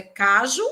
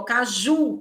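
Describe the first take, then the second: First: "caju" with the first syllable "ca" hit hard; wrongly stressed "caju", KA-ju, as a test. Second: "caju" with a strong, drawn-out final "ju"; "caju" said the usual way, ka-JU; stress on JU. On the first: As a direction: punch "ca" and let "ju" fall weak in "caju". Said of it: "colocando a intensidade no K". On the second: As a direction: lean hard on the last syllable of "caju". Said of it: "quem é a sílaba mais forte?". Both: Shown as a demonstration.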